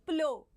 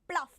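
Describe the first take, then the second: First: The word ends with an ow sound. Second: The word ends with an f sound. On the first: The speaker calls it right. "It is plow" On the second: The speaker calls it wrong. "people do mispronounce it as pluff"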